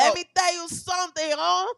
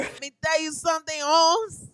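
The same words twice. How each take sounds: First: Mock Chicano voice, a bit higher and louder; Mexican accent. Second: Mock Chicano tough guy saying Holmes; Mexican accent. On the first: Repeated Mexican imitation. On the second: Imitating Mexican friend.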